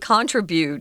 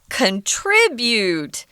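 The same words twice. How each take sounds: First: The stress is on the first syllable. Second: The stress is on the second syllable. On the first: This is the British pronunciation. "they say contribute, just the opposite" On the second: This is the American pronunciation. "the strong accent is on the second syllable"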